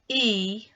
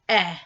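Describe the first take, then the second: First: The vowel is said with its long sound. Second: The vowel is said with its short sound. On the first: "long sound" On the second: "short sound"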